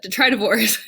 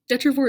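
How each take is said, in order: First: The word is said with four syllables. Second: The word is said with three syllables. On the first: The speaker calls it right. "but detritivores" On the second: The speaker calls it wrong. "Detrivore is so much easier to say"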